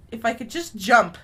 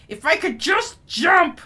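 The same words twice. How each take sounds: First: Said in the usual way. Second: JUST and JUMP drawn out and punched loud; slow down and hit "just jump" hard; exasperated, loud stress on JUMP; frustrated emphasis. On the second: Real, not acted. Repeats it in frustration.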